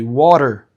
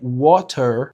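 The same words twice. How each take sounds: First: The middle T is a quick flap. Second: The middle T is a clear t sound. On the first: "we change that T sound for a flap T sound" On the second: "Instead of saying"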